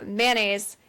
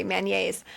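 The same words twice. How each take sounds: First: Said in the usual way. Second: MAYONNAISE with a slipped-in Y, man-YAYS; "mayonnaise" with a Y glide before the last syllable; joke mispronunciation. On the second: Shown as a demonstration. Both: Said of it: "I'm trying not to say".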